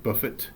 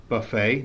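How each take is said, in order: First: "buffet" as BUFF-it, with the T pronounced; "buffet" with short final vowel and hard T; sounded T. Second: "buffet" as buh-FAY, no T at the end; "buffet" French-style, the final T left silent. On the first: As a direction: say "buffet" as spelt, stress first, ending in T. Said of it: "not buffet". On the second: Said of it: "this is pronounced". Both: Shown as a demonstration.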